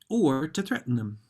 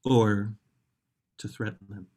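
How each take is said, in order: First: It is said in a happy tone. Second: It is said in a threatening tone.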